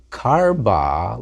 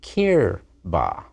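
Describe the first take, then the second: First: "karba" said slowly with an open a sound, kar-ba; "karba" with a clear a in the first syllable, spoken slowly; wrong form. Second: "kirba" said slowly with a short i sound, kir-ba; "kirba" with a clear i in the first syllable, spoken slowly; correct form. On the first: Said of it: "Not karba". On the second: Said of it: "but kirba". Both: Shown as a demonstration.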